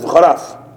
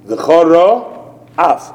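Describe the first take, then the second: First: The two words run together without a pause. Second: There is a clear stop between the two words.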